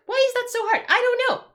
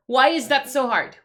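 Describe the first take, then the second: First: Very high-pitched exasperated outburst. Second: Louder, frustrated demand. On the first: Streamer at wit's end over light timers, exasperated. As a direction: shoot way up high in helpless frustration. Rant peaks on repeated question. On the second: Streamer ranting about clock timers, frustrated. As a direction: complain loudly about the timers. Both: Real, not acted.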